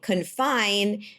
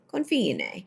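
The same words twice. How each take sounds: First: The name is said the English way. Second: The name is said the Italian way. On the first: The speaker calls it wrong. "Confine is not how you pronounce the name of the restaurant" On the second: The speaker calls it right. "It is Confine"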